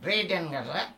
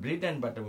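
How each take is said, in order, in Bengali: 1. b ধ্বনিগুলো নরম হয়ে বেরোয়, g-এর মতো। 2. b ধ্বনিগুলো স্পষ্ট b ধ্বনি হিসেবে বেরোয়। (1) "এটা আমার মুখ নড়ছে না" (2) "আমি যখন ব্রেড অ্যান্ড বাটার বলছি মুখ নড়ছে"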